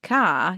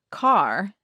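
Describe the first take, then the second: First: CAR ending on an open ah, no R; R left out. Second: CAR with the final R sounded; American rhotic R. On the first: Therapist showing it can go without, R dropped. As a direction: say car non-rhotic, "cah". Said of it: "you can say it without". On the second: Therapist giving the word in American, R sounded. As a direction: say car American style, R curled at the end. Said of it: "in an American accent". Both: Shown as a demonstration.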